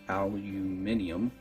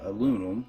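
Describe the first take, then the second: First: It is said the British way, five syllables. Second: It is said the American way, four syllables.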